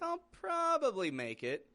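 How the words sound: It sounds doubtful and unsure. The person may not actually come. "This doesn't sound too confident"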